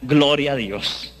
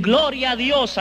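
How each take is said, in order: First: Low, slow, reluctant "Gloria a Dios"; mock half-hearted praise; grudging reply. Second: Bright, high "Gloria a Dios" in happy praise; imitating cheerful believers; joyful greeting. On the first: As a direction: mutter "Gloria a Dios" without conviction. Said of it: "Entonces yo les contesté ya". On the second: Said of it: "y me dicen".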